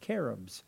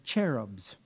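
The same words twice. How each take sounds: First: The word begins with a hard K sound. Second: The word begins with a soft CH sound. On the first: The speaker calls it right. "the CH is the hard K sound" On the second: The speaker calls it wrong. "sometimes mispronounced as cherubs"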